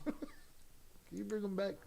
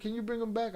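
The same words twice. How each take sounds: First: Slow, soft words through real laughter; laughing. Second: Said in the usual way. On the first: Real, not acted. Streamer asks Zoraida to bring Primo back, laughing. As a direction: chuckle your way through the question.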